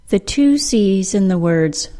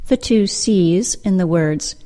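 The two takes are said the same way.

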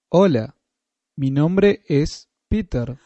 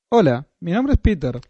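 First: It is said slowly. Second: It is said at normal speed.

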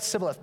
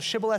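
First: The word begins with an 's' sound. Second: The word begins with a 'sh' sound. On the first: The speaker is an outsider. The speaker calls it wrong. "you'll pronounce it wrong" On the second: The speaker belongs to the group. The speaker calls it right. "you'll pronounce it right"

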